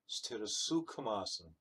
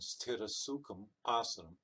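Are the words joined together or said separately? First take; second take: joined; separately. First: The words are joined in one continuous flow. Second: The words are said as separate units. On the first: The speaker calls it right. "And I'm doing Sanghita Pata" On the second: The speaker calls it wrong. "I'm not saying Sthira Sukham Asanam"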